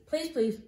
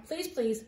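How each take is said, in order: Both takes have the same delivery.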